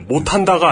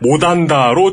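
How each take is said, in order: First: The word has the standard Seoul pronunciation. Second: The word has a Jeolla dialect pronunciation. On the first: "못한다가 아니고" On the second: "못한다를 전라도 사투리로 발음하십니다"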